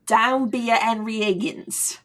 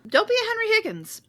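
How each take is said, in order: First: Lighter attempt at British accent. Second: Fast, high mock British accent; clipped posh English delivery. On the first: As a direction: say it with an English lilt. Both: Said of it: "now your accent sounds better than mine".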